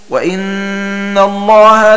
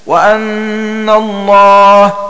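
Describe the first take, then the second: First: The first word begins with an i vowel. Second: The first word begins with an a vowel. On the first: "بكسر الهمزة" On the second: "بفتحها"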